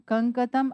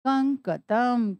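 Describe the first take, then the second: First: Said in the usual way. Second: कंकतम drawn out slowly, each syllable clear; slow reveal of the word. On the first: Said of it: "कंकतम अर्थात कंघा". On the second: Shown as a demonstration. Teacher to students revealing the word, slowly. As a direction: spell कंकतम out in sound, slowly. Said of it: "क्या बना पूरा शब्द मिलाकर?".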